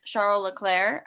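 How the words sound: The name is said with French pronunciation. "The native pronunciation of his name is"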